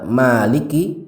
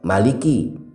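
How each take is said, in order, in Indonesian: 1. Vokal pertama dibaca panjang. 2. Vokal pertama dibaca pendek. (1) "yang seharusnya dibaca panjang" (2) "dibaca pendek"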